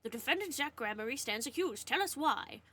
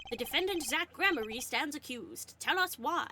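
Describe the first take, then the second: First: Lightly imitating the judge's announcement; quick retelling of the judge voice. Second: Raised, formal judge voice. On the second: Acted. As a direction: announce it like a courtroom judge. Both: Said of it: "I did his voice for".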